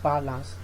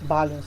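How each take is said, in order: First: The second vowel is a full vowel. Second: The second vowel is a reduced schwa. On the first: The speaker calls it wrong. "instead of balance" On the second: The speaker calls it right. "This is pronounced balance, balance instead of"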